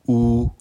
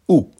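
First: The pitch stays high and level. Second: The pitch falls sharply from high. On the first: "Premier ton" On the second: "Quatrième ton"

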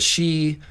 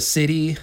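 First: The word is said as one syllable. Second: The word is said as two syllables. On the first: The speaker calls it right. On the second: The speaker calls it wrong.

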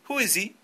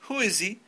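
Both takes have the same delivery.

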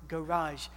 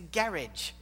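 First: The word is said with a French-like pronunciation. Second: The word is said with an anglicized pronunciation. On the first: The speaker calls it wrong. "Why do you say that like the French?" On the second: The speaker calls it right. "It's a garage"

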